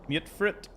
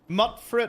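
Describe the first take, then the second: First: The first syllable has a long vowel, like mute. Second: The first syllable has a short vowel, like mutt. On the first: "I'm expecting an E, so I say Mute" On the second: "But Mutfrit could be the way"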